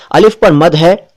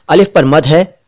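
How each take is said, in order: Both takes have the same delivery.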